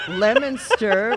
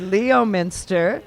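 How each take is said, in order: First: The first part sounds like lemon. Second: The first part sounds like Leo. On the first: This is how locals actually say it. "how it's pronounced" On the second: This is how the spelling suggests saying it. "which should be Leominster"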